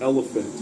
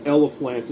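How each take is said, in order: First: Said in the usual way. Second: "elephant" garbled into "ellaphlant"; a character's botched "elephant", ending in "-flant"; mispronounced elephant. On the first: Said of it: "instead of elephant". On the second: Shown as a demonstration. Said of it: "he says it as elephant instead of elephant".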